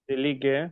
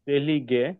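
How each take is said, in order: No difference in how they are said.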